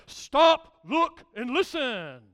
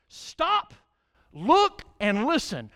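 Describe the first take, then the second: First: A touch of a stern coach, loud sharp Stop; booming coach barking orders; coach's deep voice. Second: Loud command. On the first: Retold or imitated. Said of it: "in that deep voice, he would say". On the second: Acted. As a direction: Stop shouted high and loud, then look, listen. Preacher repeats coach's command.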